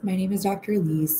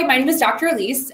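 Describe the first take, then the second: First: It is said with low, hesitant energy. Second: It is said with high, excited energy.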